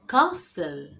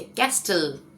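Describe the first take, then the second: First: There is no t sound in the middle. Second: The middle t sound is clearly heard. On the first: The speaker calls it right. "इसका सही उच्चारण है कासल" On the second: The speaker calls it wrong. "मैं तो बचपन से ऐसे ही बोलती थी इसे"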